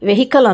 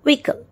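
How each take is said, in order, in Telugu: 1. h ధ్వని పలుకుతారు. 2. h ధ్వని వదిలేస్తారు. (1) "వెహికల్ అనకూడదు" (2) "ఎస్, అలా వెహికల్"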